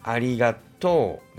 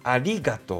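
First: The pitch rises late, then falls at the end. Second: The pitch rises early, then falls afterwards.

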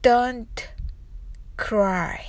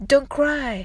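First: It is said slowly. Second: It is said fast.

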